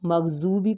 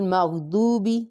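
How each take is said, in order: First: The middle consonant is a z sound. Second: The middle consonant is a heavy d-like sound. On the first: The speaker calls it wrong. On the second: The speaker calls it right.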